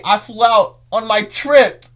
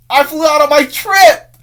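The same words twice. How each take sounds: First: "I flew out on my trip." said high, loud and slow; excited. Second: "I flew out on my trip!" even higher and louder, almost shouted; more excited. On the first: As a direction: stretch "trip" out with growing glee. Repeated with more excitement. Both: Real, not acted.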